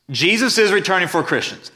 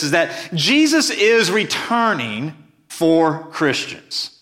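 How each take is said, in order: First: Said in the usual way. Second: Each word laid down slowly and firmly; measured preacher's emphasis on Jesus; slow emphatic statement. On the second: Shown as a demonstration. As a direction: drive the point home, unhurried.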